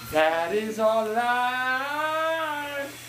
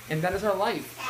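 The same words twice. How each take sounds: First: Slow, drawn-out sigh of a line; very slow drawl. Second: Said in the usual way. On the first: Shown as a demonstration. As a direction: stretch every word out slowly.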